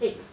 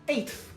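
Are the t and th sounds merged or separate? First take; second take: merged; separate. First: The t and th merge into one sound. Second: The t and th are said as separate sounds. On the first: The speaker calls it right. "We again we merge the T H and the T together" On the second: The speaker calls it wrong. "nobody is saying somebody came in eighth"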